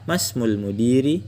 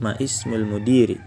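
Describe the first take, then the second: First: Ma runs straight into smul, dropping the i. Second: Ma and ismul are said separately, keeping the i.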